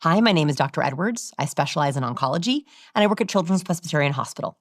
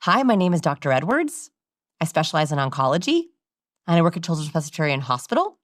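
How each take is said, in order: First: EDWARDS and ONCOLOGY lifted, HOSPITAL falling; surgeon's introduction. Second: EDWARDS, ONCOLOGY and HOSPITAL all rising like questions; unsure doctor asking each phrase, up to HOSPITAL; question inflection throughout. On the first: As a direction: list name and specialty, settle down on HOSPITAL. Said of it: "Sounded like this". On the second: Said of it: "the bad doctors sounded like this". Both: Shown as a demonstration.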